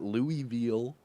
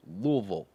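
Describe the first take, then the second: First: Louisville said as "LOO-ee-vill", every syllable spelled out; the outsider's Louisville, "Loo-ee-vill"; wrong pronunciation. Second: Louisville said as "LUH-vul", two syllables, swallowed middle; local pronunciation. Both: Shown as a demonstration. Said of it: "You know, it's pronounced Louisville".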